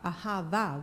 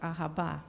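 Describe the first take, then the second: First: The middle consonant is a V sound. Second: The middle consonant is a B sound. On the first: The speaker calls it right. "ahava with a V" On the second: The speaker calls it wrong. "we've been mispronouncing our sign off"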